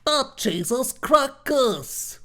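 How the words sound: The intonation sounds negative and disapproving. The cheese is bad. "your intonation kind of makes it sound like it's uh, meant in a bad way"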